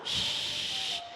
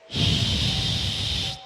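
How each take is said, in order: First: The sh sound is held only briefly. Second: The sh sound is held for a long time.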